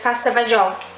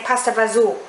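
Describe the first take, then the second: First: It is said with a standard Italian pronunciation. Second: It is said with an Italian American pronunciation.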